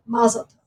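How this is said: It is said with an American stress pattern.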